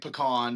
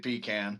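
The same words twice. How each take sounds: First: Pecan is said the way Texans say it. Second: Pecan is said the way northerners say it.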